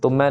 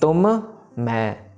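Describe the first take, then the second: First: The two m sounds merge into one. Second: Each m is said with the lips closing again. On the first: The speaker calls it wrong. "ये मैं को जोड़ देते हैं तुम के साथ" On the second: The speaker calls it right. "फिर से मुंह बंद होगा अगले वाले मैं के लिए"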